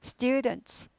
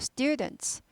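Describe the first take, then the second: Both takes have the same delivery.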